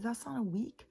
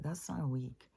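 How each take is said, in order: First: High, insistent protest that it's not a week; arguing with her daughter over the days, up high and insistent; indignant insistence. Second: Said in the usual way. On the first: Retold or imitated. Recalling the fight with her daughter, pitched high in protest.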